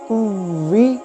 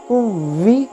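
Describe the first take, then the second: The two takes are said the same way.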